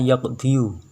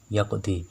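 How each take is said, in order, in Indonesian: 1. Kata itu berakhir dengan suku kata 'yu' penuh. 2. Kata itu berakhir dengan vokal 'i' panjang. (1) "harusnya yaqdiyu" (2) "maka diucapkan yaqdi"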